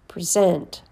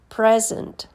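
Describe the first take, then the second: First: The stress is on the second syllable. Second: The stress is on the first syllable. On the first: It is a verb. "and then the verb" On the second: It is a noun. "First, you hear the noun"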